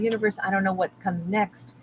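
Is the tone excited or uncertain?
uncertain. It sounds unsure and deflated. Not knowing the future feels worrying. The speaker calls it wrong.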